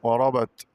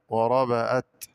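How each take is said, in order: First: Said in the usual way. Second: وربأت with an open hamza between ba and ta; added hamza. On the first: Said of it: "قرأ بزيادة همزة مفتوحة". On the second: Shown as a demonstration. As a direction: say وربأت as "wa-raba-at". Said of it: "بزيادة همزة مفتوحة بين الباء والتاء".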